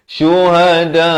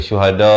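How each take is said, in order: First: Chanted "Syuhada" with long vowel stopped by hamzah; hamzah di akhir. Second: Spoken "syuhada" with open ending, no glottal stop; salah, tanpa hamzah. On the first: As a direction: end "Syuhada" on a glottal stop after a held aa. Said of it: "Mesti hamzah ada di akhir". (lagukan "Syuhada", tutup dengan hamzah) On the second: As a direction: let the final a of "syuhada" trail open. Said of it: "Ha, bukan syuhada". (sebut "syuhada" tanpa hamzah di akhir) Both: Shown as a demonstration.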